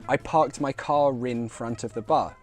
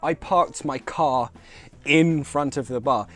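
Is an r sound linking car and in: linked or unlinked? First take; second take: linked; unlinked. First: Car and in are joined by an r sound. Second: Car and in are said without a linking r. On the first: "We link the car in with a r sound" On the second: "instead of"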